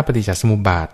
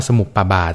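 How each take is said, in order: First: ปฏิจจสมุปบาท read ปะ-ติด-จะ-สะ-หมุบ-บาด with ม and ป blended; correct Pali reading. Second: สมุปปาบาท read with a doubled ปป and a long ปา before บาท; common misreading. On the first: Shown as a demonstration. Monk teaching the host the right reading, ปฏิจจสมุปบาท said สะ-หมุบ-บาด. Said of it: "ต้องอ่านว่าสมุปบาท". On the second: Retold or imitated. Monk showing the common misreading to the host, สมุปปาบาท read สะ-มุบ-ปา-บาด. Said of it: "หลายๆคนอาจจะอ่านว่าสมุปปาบาทอะนะ".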